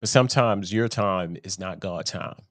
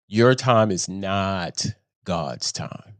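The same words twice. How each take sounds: First: Said in the usual way. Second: Slow, deliberate "Your time is not God's time" for emphasis; slow, weighty repeat. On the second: Real, not acted. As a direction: say "Your time is not God's time" slowly, every word landing.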